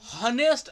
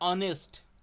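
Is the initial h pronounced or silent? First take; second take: pronounced; silent. First: The word begins with an audible h sound. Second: The word begins directly with a vowel sound. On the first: The speaker calls it wrong. "याला आपण हनेस्ट असं म्हणत नाही" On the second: The speaker calls it right. "एच कसा आहे तुमचा silent आहे"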